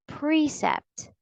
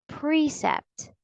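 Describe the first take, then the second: No difference in how they are said.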